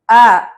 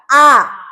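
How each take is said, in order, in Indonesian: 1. Vokal diucapkan kendur, mulut hampir tidak terbuka. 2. Vokal diucapkan dengan mulut terbuka lebar. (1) "Jangan cuman A" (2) "Kalau A berarti benar-benar harus dibuka"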